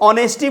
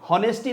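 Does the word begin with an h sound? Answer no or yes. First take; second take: no; yes. First: The word starts with a vowel, no h. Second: The word starts with an audible h sound. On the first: The speaker calls it right. "इसको ऑनेस्टी बोलते हैं" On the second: The speaker calls it wrong. "हॉनेस्टी नहीं बोलते हैं"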